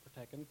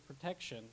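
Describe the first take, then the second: First: "protection" with the SH dropped, like "pro-tek-in"; mispronounced protection. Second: Said in the usual way. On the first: Shown as a demonstration. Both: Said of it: "not protection".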